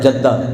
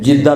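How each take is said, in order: First: The first vowel is an 'a' sound. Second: The first vowel is an 'i' sound. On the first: The speaker calls it right. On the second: The speaker calls it wrong.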